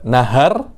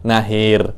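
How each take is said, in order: First: The second vowel is a plain open 'a'. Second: The second vowel leans toward 'i'.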